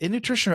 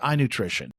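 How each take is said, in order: First: The name begins with the sound 'in'. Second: The name begins with the sound 'eye'. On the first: "Is it in nutrition" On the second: "or I nutrition?"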